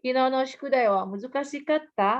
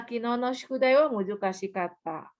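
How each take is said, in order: First: "muzukashikatta?" ending on a rising question tune. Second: "muzukashikatta." ending on a falling statement tune. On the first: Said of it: "nanya kan?". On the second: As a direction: state "muzukashikatta." flatly, no question. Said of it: "itu berarti bukan pertanyaan". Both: Shown as a demonstration.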